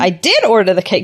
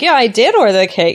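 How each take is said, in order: First: A big stressed did sounds argumentative. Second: A lighter did sounds calm and matter-of-fact.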